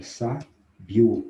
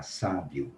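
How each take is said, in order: First: "sa, bio" broken in two, second part punched louder; split into syllables. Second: Said in the usual way. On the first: Shown as a demonstration. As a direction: pause between "sa" and "bio", stressing the diphthong. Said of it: "onde que tá o ditongo crescente?". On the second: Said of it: "Qual é a palavra?".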